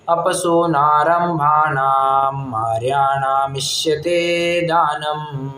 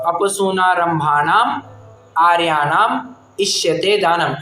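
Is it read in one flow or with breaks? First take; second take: one flow; with breaks. First: It is read in one continuous flow. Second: It is read with breaks between the words.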